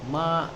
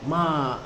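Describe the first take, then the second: First: The pitch dips low, then rises again. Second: The pitch falls sharply from high. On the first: It means horse. "nadanya yang dari setengah ke rendah, kemudian naik" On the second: It means to scold. "nada tinggi petah"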